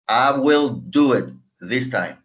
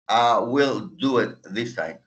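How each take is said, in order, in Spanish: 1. 'Will' se dice como una palabra completa separada. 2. 'Will' se dice como una palabra completa separada.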